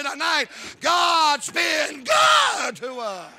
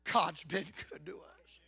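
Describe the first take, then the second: First: Shouted climax. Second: Quiet reassurance. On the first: Acted. Preaching climax. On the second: Retold or imitated. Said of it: "And he looks at her and said".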